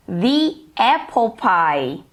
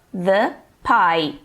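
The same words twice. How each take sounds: First: Slow "The apple pie", "The" as "thee"; long ee in "The" before "apple"; THE before a vowel. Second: Low "The pie", "The" as "thuh"; THE before a consonant. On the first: English teacher contrasting with plain pie, slow "thee apple pie". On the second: English teacher repeating the example, "The pie" said "thuh pie". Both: Shown as a demonstration. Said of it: "a palavrinha que vem em seguida que vai determinar o som".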